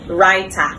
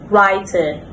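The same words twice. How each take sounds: First: The ending is an open ah vowel. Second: The ending is a short weak vowel. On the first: The speaker calls it wrong. "commonly mispronounced" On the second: The speaker calls it right. "correct pronunciation"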